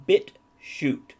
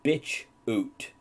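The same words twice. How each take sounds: First: BitChute read slowly as "bit" plus "chute"; correct site name. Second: "bitch oot" split as "bitch" then "oot"; misreading. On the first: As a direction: say BitChute with a clean break before "chute". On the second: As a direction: misread it slowly as bitch oot, the ch closing the first word. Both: Shown as a demonstration. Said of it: "which I read as".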